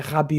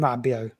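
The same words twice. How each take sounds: First: The name is said with a raspy French R. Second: The name is said with a plain English R.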